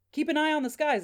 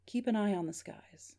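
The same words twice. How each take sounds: First: Higher, livelier repeat of a message; eager, raised-pitch report; animated relaying. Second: Restrained, faint caller voice; weakening voice. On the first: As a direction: pass it on emphatically to someone nearby. Gary relays the message to Dad. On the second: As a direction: say it evenly, as if fading down the line. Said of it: "but still kind of weakening out". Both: Acted.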